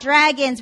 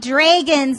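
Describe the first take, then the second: First: The vowel is said in an American way. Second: The vowel is said in a Canadian way. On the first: "not dragons" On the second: "We see dragons"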